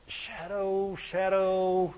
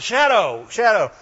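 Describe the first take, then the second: First: Hushed, drawn-out musing; mock pondering. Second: Full-voiced, brisk word-finding; mock discovery. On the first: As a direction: murmur the word slowly as if mulling it over. Mimics aimless pondering of a word. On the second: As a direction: say it out as if just hitting on the word. Acts out landing on the word.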